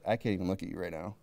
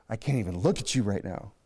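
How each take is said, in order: First: Low, fast, mildly stern God voice; a hint of a God too angry to look. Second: Lower, mock-weary wife line; fed-up wife. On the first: Preacher voices God turning away from sinners, low and quick. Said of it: "he's just like". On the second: Preacher mimics a wife scolding her husband, low and mildly weary. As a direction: imitate an exasperated wife, lightly. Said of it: "Some of us husbands have probably heard that one".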